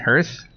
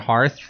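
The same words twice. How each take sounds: First: The vowel sounds like the one in 'earth'. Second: The vowel sounds like the one in 'heart'. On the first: The speaker calls it right. "It's H Earth" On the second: The speaker calls it wrong. "I don't know why I said hearth"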